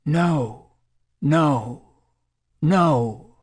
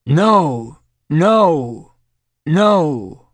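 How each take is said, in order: First: Higher-pitched cry at ordinary volume; an understated, narrated cry of distress; crying out, restrained. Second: Loud, high bellow of refusal. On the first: Distressed volunteer during a drug session, mildly crying out. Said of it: "For the next minute she cried". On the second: Terrified volunteer during a drug session, bellowing. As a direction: bellow it out, pitched well up. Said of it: "Then she bellowed". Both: A narrator's reading.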